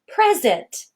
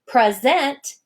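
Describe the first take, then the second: First: The stress is on the first syllable. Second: The stress is on the second syllable. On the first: It is a noun meaning a gift. "Do you hear that the first syllable, pres, is stressed?" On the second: It is a verb meaning to give. "the first syllable in the word present is unstressed"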